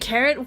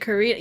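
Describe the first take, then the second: First: The second syllable has a short unstressed vowel. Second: The second syllable has a long 'ee' vowel. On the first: The speaker calls it right. "You s- just pronounce it Karen" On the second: The speaker calls it wrong. "not pronounce it Korean"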